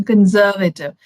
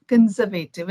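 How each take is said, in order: First: "conservative" with a weak middle "vuh", "kən-SER-və-tiv"; correct pronunciation. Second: "Conservative" with a full "vay" syllable, "kən-zer-VAY-tiv"; Indian pronunciation. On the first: A speaker showing the correct English "conservative". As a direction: say "conservative" with a reduced uh before tiv. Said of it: "is the correct pronunciation". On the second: A speaker showing how "Conservative" is said in India. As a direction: say "Conservative" with a long ay before tiv. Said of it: "is what we say in India". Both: Shown as a demonstration.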